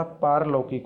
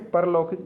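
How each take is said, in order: First: पारलौकिक opening with long "paar"; long first vowel. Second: परलौकिक opening with short "par"; wrong short first vowel. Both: Shown as a demonstration. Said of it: "पा पर आक मात्रा".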